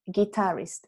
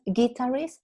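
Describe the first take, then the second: First: "guitarist" slow, stress on the second syllable; right stress. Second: "guitarist" stressed on the first syllable; the student's mistaken "guitarist"; wrong stress. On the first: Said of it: "es guitarist". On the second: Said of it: "No es guitarist". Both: Shown as a demonstration.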